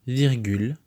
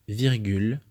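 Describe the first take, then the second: The two takes are said the same way.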